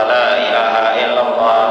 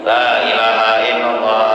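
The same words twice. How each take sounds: Both takes have the same delivery.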